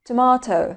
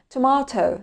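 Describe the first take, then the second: First: It is said with a British accent. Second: The same.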